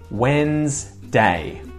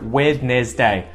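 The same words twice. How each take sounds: First: It is said in the usual shortened way. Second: Every letter is sounded out, as spelled. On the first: The speaker calls it right. "but when I'm speaking, it's just Wednesday" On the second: The speaker calls it wrong. "No one would ever say it like that"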